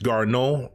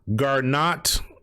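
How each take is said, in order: First: The surname has a French pronunciation. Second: The surname has a plain English pronunciation.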